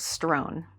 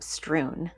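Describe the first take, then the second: First: The vowel sounds like 'oh' in 'grown'. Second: The vowel sounds like 'oo' in 'true'. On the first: "I thought it was strown" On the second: "That's how you pronounce that word?"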